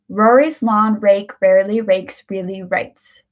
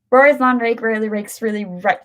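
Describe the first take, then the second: First: It is said at a moderate, even speed. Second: It is said very fast and hard to follow. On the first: "Let's try this now at a medium pace" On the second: "And now I will try to do it quickly"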